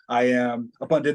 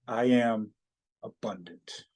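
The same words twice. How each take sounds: First: It is said fast and rushed. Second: It is said slowly and deliberately.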